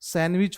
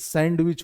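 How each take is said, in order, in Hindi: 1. इस शब्द में d की ध्वनि छोड़ दी जाती है। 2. इस शब्द में d की ध्वनि साफ़ बोली जाती है। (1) "पढ़ते समय ये डी का उच्चारण नहीं करते हैं। सैंडविच होता है" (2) "ना कि सैंडविच होता है"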